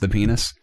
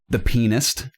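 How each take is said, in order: First: The title is said quickly and squashed. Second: The title is said slowly and fully.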